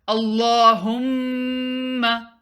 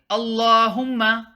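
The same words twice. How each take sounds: First: The m sound is held nasally for two counts. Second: The m sound is cut short without nasal hold. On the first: The speaker calls it right. "Do gunna" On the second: The speaker calls it wrong. "Don't say Allahumma"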